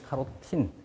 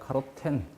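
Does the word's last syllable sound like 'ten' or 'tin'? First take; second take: tin; ten. First: The last syllable is said with an 'i' vowel. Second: The last syllable is said with an 'e' vowel. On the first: This form follows how native speakers actually say it. "발음 나는 대로 표기하게 되면" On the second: This form follows the phonetic transcription. "발음 기호로 표기하면"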